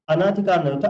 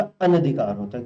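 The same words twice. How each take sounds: First: अनाधिकार with long आ after न; wrong form. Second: अनधिकार with short अ after न; correct form. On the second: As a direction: say अनधिकार with the short vowel, as the right one. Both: Shown as a demonstration.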